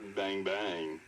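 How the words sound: It is said in a flirty tone.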